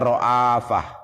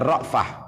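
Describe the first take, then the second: First: A long vowel is sounded after the hamzah. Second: No vowel is sounded after the hamzah. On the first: "hamzahnya dipanjangkan" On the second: "Kalau kita bacanya ra'fah"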